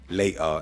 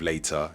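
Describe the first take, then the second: First: The middle T is a glottal stop. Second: The middle T is a clear T. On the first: "we tend to speak with a glottal stop" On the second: "instead of"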